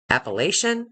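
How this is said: It is said the northern Appalachian way.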